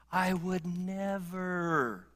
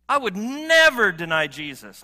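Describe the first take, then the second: First: Drawn-out, hushed I would never; slow, quiet vow. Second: I would never deny Jesus, much louder and higher; loud protest. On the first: Preacher voicing his own quiet vow slowly. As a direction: savour each word, slowly and softly. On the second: Preacher voicing his own boast to the congregation, loudly. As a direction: belt out the protest with full force. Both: Retold or imitated. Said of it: "I find myself saying that".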